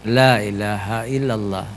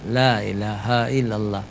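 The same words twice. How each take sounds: Both takes have the same delivery.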